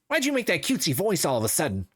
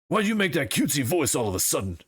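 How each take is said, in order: First: The character voice is higher in pitch. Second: The character voice is low and deep. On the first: The speaker calls it right. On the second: The speaker calls it wrong. "too deep"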